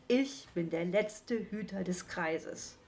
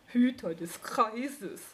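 First: Said in the usual way. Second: Slow, scornful snort of a repeat; snorting mockery. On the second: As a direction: scoff at his grand title. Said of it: "prustete der Igel".

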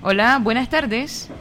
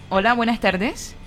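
The two takes are said the same way.

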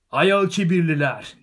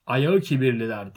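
First: Loud, high, drawn-out heckling yell; elderly hobbit shout. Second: Loud repeat, close to the usual pitch; firm repeat. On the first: Elderly hobbit calling out from behind the tent, high loud shout. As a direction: shout the correction across the crowd. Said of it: "diye bağırdı yaşlıca bir hobbit". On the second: Bilbo repeating the name after the heckler, loud but controlled. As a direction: say it back firmly to the crowd. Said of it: "diye tekrarladı Bilbo". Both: A narrator's reading.

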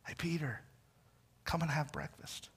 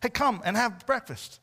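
First: Softer, tender call to Peter; Jesus softly calling Peter to breakfast; gentle invitation. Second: Said in the usual way. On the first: Retold or imitated. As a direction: invite him in quietly, like a friend.

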